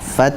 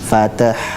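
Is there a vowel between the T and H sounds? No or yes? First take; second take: no; yes. First: The t runs straight into the h. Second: An extra vowel is inserted before the h. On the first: The speaker calls it right. "langsung lari ke ha" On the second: The speaker calls it wrong. "Bukan fatah"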